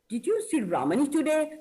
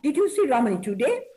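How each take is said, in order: First: The word Ramani is stressed. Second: The word today is stressed. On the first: The question is about this person, not anyone else. "So I'm stressing on Ramani" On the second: The question is about today, not another day. "Stressing on today"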